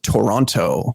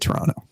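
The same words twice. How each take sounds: First: Every t sound is pronounced crisply and clearly. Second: The t sounds are softened and run together. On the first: The speaker is not from the city. "the enunciation is very, very clear and concise" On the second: The speaker is from the city. "you just let those T's roll"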